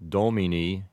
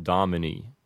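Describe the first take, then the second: First: Domini with a rounded o; domini, Latin vowels. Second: Domini with short ah-muh vowels; domini, English shortened vowels; Americanized domini. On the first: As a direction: say domini as DOH-mee-nee. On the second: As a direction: say domini as DAH-muh-nee. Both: Shown as a demonstration. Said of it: "you might hear it said domini".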